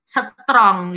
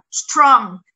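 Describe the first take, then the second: First: A vowel is inserted after the s. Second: The s, t and r form a tight cluster.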